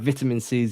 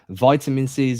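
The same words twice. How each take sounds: First: It is said in an English accent. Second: It is said in an American accent.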